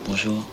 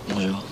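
First: It sounds like a real, warm hello. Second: It sounds like saying goodbye.

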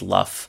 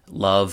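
First: The word ends with a voiceless f sound. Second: The word ends with a voiced v sound.

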